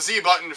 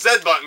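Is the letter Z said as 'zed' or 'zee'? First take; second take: zee; zed. First: The letter is said 'zee', American style. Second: The letter is said 'zed', non-American style.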